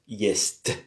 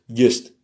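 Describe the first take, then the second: First: The final t is soft, palatalized. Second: The final t is hard, not palatalized. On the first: The speaker calls it right. "C'est mouillé, c'est adouci" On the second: The speaker calls it wrong. "S'il n'y avait pas le mjaki znak, le signe mou, on, on aurait dit just"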